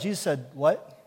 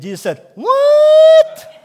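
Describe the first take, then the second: First: It is said in the speaker's normal voice. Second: It is said in a put-on Minion voice.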